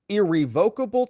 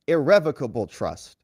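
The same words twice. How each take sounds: First: Irrevocable stressed on VOKE: ir-ree-VOKE-uh-bul; lawyer's pronunciation. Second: Irrevocable stressed on REV: ir-REV-uh-kuh-bul; judge's pronunciation. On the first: Judge offering Don Junior one option, irrevocable said ir-ree-VOKE-able. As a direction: say irrevocable with a long O, like revoke. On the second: Judge offering Don Junior the other option, irrevocable said ir-REV-ocable. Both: Retold or imitated. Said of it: "I think it's pronounced irrevocable".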